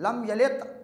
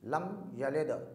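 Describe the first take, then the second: First: The word ends with a t sound. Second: The word ends with a bouncing d sound. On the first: The speaker calls it wrong. "ऐसा नहीं है कि हम पढ़ें" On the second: The speaker calls it right. "कलकला यानी हिलाना है"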